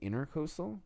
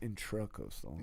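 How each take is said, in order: First: The word begins with the sound 'inter'. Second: The word begins with the sound 'intra'. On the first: The speaker calls it wrong. "I used to say intercoastal" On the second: The speaker calls it right. "it's intracoastal"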